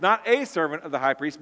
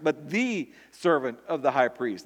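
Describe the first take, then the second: First: "a" pressed a little, as the wrong reading; stress on a. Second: "the" carrying the main falling stress. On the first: Preacher to his congregation, pressing "a" as the wrong reading. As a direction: lean lightly on the little word "a". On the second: Preacher correcting the wording to his congregation, stress on "the". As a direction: land firmly on "the" with a falling close. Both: Shown as a demonstration.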